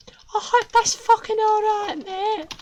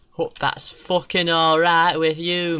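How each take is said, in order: First: Very high chirpy voice on "I hope that's fucking all right, mate"; high cartoon villain voice; squeaky villain. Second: Said in the usual way. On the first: Squeaky voice repeats line.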